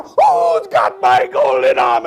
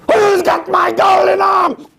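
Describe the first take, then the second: First: Slow, loud, eerie ghost call; ghostly shout. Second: High, loud, slow ghostly shriek. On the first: Ghost right behind the mean man, slow eerie shout. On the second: Ghost outside the house demanding its arm, high shriek. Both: Acted.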